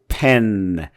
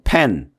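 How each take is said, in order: First: Its final n sound is exaggerated and drawn out. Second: It is said flatly like a Korean word. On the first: The speaker calls it right. "pen 이런 식으로 끄트머리 늦자 소리를 좀, 좀 과장되게" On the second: The speaker calls it wrong. "한글처럼 pen 이렇게 하지 말고"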